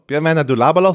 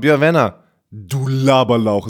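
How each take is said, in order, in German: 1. In einem Zug gesprochen, ohne Pause. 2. Eine Pause, dann tiefere Stimme. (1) "nicht nur" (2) "So richtig so gestoppt und dann richtig mit ein bisschen tieferer Stimme"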